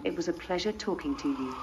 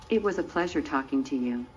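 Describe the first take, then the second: First: Polite British English accent. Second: Low-pitched American accent. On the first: Robot retrying its sign-off on request, in a British accent. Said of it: "Use your British accent". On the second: Robot signing off to its interviewer, still in an American accent. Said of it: "you didn't go back to being English". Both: Shown as a demonstration.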